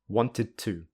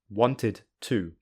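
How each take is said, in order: First: The two words run together smoothly. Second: The two words are said separately. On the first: "with linking" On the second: "without linking"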